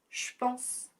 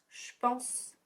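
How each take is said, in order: First: 'Je' is shortened to a 'sh' sound. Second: The same.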